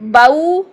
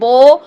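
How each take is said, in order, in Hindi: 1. स्वर a से u की ओर फिसलता है। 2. स्वर एक सपाट ध्वनि है। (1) "ये होता है मोड़ पैदा करना" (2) "ये करेंगे तो गलत है"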